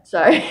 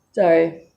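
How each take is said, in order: First: Sorry through a laugh, louder. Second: Said in the usual way. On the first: Real, not acted. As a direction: apologise while laughing at yourself. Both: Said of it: "Should have been in bed".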